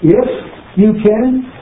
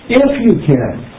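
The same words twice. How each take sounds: First: It is said with a marked questioning inflection. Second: It is said in a desperate, pleading tone. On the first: The speaker challenges the doubt in the request. "You hear the inflection there?" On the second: The speaker begs for help but doubts it is possible. "You can hear the desperation in that"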